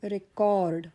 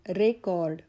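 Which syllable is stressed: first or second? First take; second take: second; first. First: The stress is on the second syllable. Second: The stress is on the first syllable. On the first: It is used as a verb. "मी उच्चाराचा आघात सी O R D कॉर्डवर घेतला" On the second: It is used as a noun. "Noun म्हणून जेव्हा मी भर दिला रेवर"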